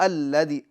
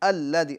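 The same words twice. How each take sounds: No difference in how they are said.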